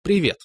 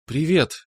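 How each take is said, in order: First: Rita's greeting. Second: Echoed greeting. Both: A narrator's reading. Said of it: "эхом отозвалась Наташа".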